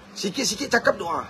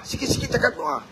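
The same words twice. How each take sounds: First: Said in the usual way. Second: "sikit-sikit cakap doa" whispered, unvoiced and soft; breathy whispered echo of "sikit-sikit cakap doa". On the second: Shown as a demonstration. Repeated as a whisper.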